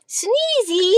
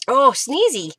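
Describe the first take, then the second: First: Calls the puppy's name, high; high calling to puppy. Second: Said in the usual way. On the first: Real, not acted. Crafter calls her puppy Sneezy, high. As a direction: sing the name out high to catch his attention.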